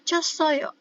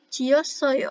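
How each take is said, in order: First: The syllables are said quickly and contracted. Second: The syllables are said slowly and fully.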